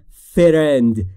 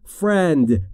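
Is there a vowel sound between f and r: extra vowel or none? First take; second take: extra vowel; none. First: An extra vowel sound separates f and r. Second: F and r join with no vowel between. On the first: The speaker calls it wrong. "یا نگفتم friend" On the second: The speaker calls it right. "گفتم friend. بین F و R صدایی وجود نداره"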